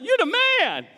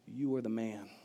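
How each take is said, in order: First: It sounds like admiring praise. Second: It sounds like a stern accusation.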